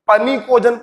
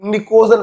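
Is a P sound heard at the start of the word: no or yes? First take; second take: yes; no. First: The word begins with an audible P sound. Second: The word begins with an N sound, no P. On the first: The speaker calls it wrong. "कभी कभी कुछ लोग इसको पनिकोजन पढ़ते हैं" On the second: The speaker calls it right. "पी silent होता है"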